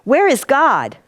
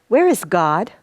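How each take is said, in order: First: It is asked in an even sterner tone. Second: It is asked in a stern tone.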